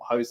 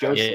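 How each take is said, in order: First: The name begins with an H-like sound. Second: The name begins without an H-like sound. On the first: The speaker calls it wrong. "not Jose Mourinho" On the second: The speaker calls it right. "Portuguese like Jose Mourinho"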